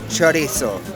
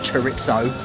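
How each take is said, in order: First: It is said with a Spanish pronunciation. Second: It is said with an English pronunciation. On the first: "How good is that pronunciation?" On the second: "Normally in English I would say chorizo"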